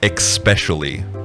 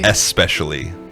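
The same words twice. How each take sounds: First: The word begins with an 'ex' sound. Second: The word begins with an 'es' sound. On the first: The speaker calls it wrong. "I say especially instead of" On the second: The speaker calls it right. "instead of"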